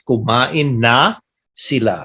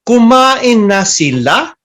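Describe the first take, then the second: First: The voice falls at the end. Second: The voice rises at the end. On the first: It states that they already ate. "They ate already" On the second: It asks whether they already ate. "if the tone it goes up at the end"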